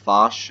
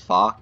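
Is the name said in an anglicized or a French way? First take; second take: French; anglicized. First: The name is said with a French pronunciation. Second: The name is said with an anglicized pronunciation. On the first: The speaker calls it right. "it is a French pronunciation as Foch" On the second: The speaker calls it wrong. "I know a lot of people think it's Foch"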